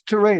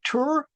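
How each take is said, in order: First: The name rhymes with hooray, starting with T. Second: The name does not rhyme with hooray. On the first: The speaker calls it right. "like hooray with a T" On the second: The speaker calls it wrong. "Is it Tur?"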